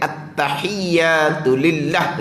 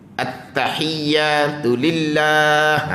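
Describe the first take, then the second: First: The vowel after the second l is clipped short. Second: The vowel after the second l is held long. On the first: A required letter is dropped. The speaker calls it wrong. "Kalau kita pendek at-tahiyyatu lillah begitu" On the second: Every letter is kept. The speaker calls it right. "jaga molek tu"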